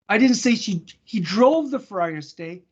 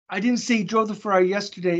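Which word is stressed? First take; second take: drove; yesterday. First: The stress falls on the word drove. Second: The stress falls on the word yesterday. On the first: A different action was named. "I said he I didn't say he parked it" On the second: A different day was named. "It was the day before"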